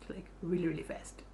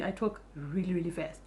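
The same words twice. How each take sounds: First: Really fast fading into a breathy hush; teasing herself, fading to a whisper; trailing off to a whisper. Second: Said in the usual way. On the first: Shown as a demonstration. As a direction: let the repeat die away to a whisper. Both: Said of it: "you're gonna have to forgive me".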